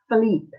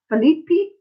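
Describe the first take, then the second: First: The final E is silent. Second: The final E is pronounced as a syllable. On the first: The speaker calls it right. "you don't pronounce the E" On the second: The speaker calls it wrong. "No. No, you don't pronounce the E"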